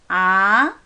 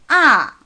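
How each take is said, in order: First: The pitch rises smoothly from the middle. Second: The pitch falls sharply and briefly. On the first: "좀 중간쯤에서 위로 부드럽게 올라갈 거예요" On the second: "조금 강하고 짧게 떨어지는 거예요"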